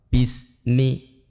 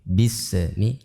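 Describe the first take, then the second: First: The s sound is cut short without airflow. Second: The s sound is given a bouncing release. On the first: "Atau tanpa mengalir" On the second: "dengan pantulan bismillah, ah, tidak boleh"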